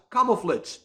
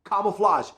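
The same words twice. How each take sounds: First: "camouflage" ending in -flidge; last syllable of "camouflage" rhyming with fridge; mispronunciation. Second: "camouflage" ending in -flahzh; correct pronunciation. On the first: Retold or imitated. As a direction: say "camouflage" wrongly, as camo-flitch. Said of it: "who used to pronounce the word". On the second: Shown as a demonstration. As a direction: standard "camouflage", last syllable like flahzh. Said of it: "This is the correct pronunciation".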